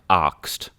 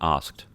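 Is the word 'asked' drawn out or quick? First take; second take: drawn out; quick. First: The word is drawn out, almost an extra syllable. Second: The word is said quickly as one syllable. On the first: "he pronounces it like asked" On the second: "rather than asked"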